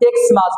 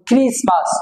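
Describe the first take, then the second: First: The word begins with an 'eks' sound. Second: The word begins with a 'kris' sound. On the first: The speaker calls it wrong. "আমরা সাধারণত এটা এক্সমাস বলি" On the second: The speaker calls it right. "আসলে সঠিক উচ্চারণ হবে ক্রিসমাস"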